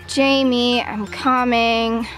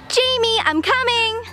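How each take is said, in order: First: It is said in a flat, unexpressive voice. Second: It is said in an excited, expressive voice. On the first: The speaker calls it wrong. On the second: The speaker calls it right.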